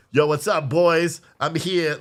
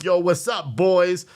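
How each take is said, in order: First: A light, louder imitation of a kid's headset hello; mimicking gamer greeting. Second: A light, louder mock headset hello; gamer greeting again. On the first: Son greeting his friends on his gaming headset, lightly imitated. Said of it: "he always goes like this". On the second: Son greeting his boys online, lightly mimicked. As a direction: toss it off like the kid online.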